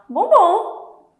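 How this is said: It sounds like eagerly accepting a chocolate.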